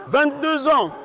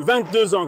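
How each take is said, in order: First: High-pitched, insistent answer; exasperated repeat. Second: Said in the usual way. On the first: Real, not acted. Suspect repeats his age to the officer, exasperated repeat.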